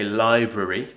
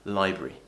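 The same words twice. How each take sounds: First: Every syllable of the word is pronounced. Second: A sound in the middle is dropped. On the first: The speaker calls it wrong. "we don't say library" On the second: The speaker calls it right. "we usually say library"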